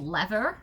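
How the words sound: It is said with an American accent.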